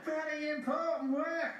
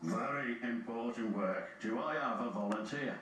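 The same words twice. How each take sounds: First: High-pitched eager cry; excited exclamation. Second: Low-pitched man in charge; low, measured authority; the Fat Controller. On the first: James jumping at important work, exclaiming. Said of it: "exclaimed James". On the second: Fat Controller seeking a volunteer, low and authoritative. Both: A narrator's reading.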